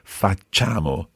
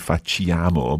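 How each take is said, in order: First: The 'ch' sound goes straight into 'a'. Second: A separate 'ee' vowel follows the 'ch' sound. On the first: The speaker calls it right. "the I's just there to make the C soft. So you don't actually pronounce it" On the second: The speaker calls it wrong. "A lot of people say facciamo, but it's not that"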